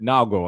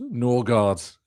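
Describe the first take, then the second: First: The name is said with Danish pronunciation. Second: The name is said with English pronunciation. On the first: "if you are indeed Danish" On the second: "if you're pronouncing it kind of as you know, you boring Brit"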